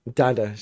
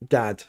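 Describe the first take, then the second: First: Dada said as two syllables, DA-da; right name. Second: Dad said as one short syllable; the wrong version, a flat single-syllable Dad; wrong name. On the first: Correcting a viewer who wrote Dad, the proper two-syllable Dada. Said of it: "I'm called Dada". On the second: Correcting a viewer's greeting, the plain wrong form Dad. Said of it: "Elo, not Dad". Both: Shown as a demonstration.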